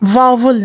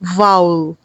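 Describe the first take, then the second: First: A 'v' sound is heard mid-word. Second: No 'v' sound is heard mid-word. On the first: The speaker calls it wrong. "वावुल नहीं कहना" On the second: The speaker calls it right. "बल्कि वाउल कहना है"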